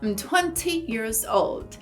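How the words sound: A British accent with a clear T in twenty. "os britânicos costumam pronunciar bastante as letras T's. Então, eles provavelmente diriam"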